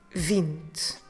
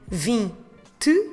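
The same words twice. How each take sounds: First: The final vowel is dropped. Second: The final vowel is clearly pronounced. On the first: The speaker calls it right. "we're dropping it because it ends on the letter E" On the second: The speaker calls it wrong. "instead of saying vinte"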